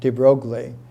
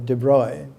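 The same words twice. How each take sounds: First: The name is said with an American pronunciation. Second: The name is said with a French pronunciation. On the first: The speaker calls it wrong. "I used to use the American pronunciation for his name" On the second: The speaker calls it right. "but it's uh"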